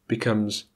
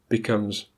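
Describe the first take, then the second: Both takes have the same delivery.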